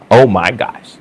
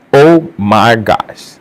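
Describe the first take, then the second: First: Said in the usual way. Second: Very slow, drawn-out oh my gosh; slow stunned repeat. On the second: Real, not acted. Vlogger reeling at the surgery story, slow and stunned. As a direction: let it sink in, stretched slowly.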